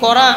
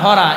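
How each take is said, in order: First: The word begins with a k sound. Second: The word begins with an h sound.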